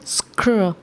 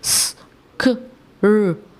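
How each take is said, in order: First: The sounds run together as one cluster. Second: Each sound is said apart with gaps. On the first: The speaker calls it right. "Mix करके blend करके पढ़ेंगे" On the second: The speaker calls it wrong. "Individual sounds नहीं पढ़ेंगे। ... ऐसे नहीं पढ़ेंगे"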